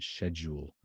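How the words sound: It is said with a British accent, starting with 'sh'. "that's the British pronunciation"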